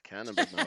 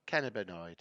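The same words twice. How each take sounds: First: Siri's British voice saying Cannabinoid; British accent. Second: Flat American Cannabinoid; American accent. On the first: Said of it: "in British accent". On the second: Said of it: "How does an American say it". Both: Retold or imitated.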